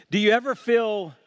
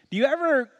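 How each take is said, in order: First: "ever" lifted and leaned on, then the line falls; stress on ever. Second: "ever" pitched much higher and held; high stress on ever. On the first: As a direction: ask it with weight on "ever". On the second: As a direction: lift "ever" high in a pleading question. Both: Shown as a demonstration.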